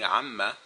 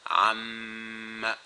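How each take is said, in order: First: The m sound is short, one beat. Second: The m sound is held long, two beats. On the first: This is ordinary reading outside recitation. "which is how you would normally read it" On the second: This is recitation with the required nasal hold. "So I gave it a longer time"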